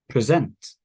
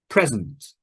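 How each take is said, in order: First: The stress is on the second syllable. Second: The stress is on the first syllable. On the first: It is used as a verb. "V is verb" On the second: It is used as a noun. "N means noun"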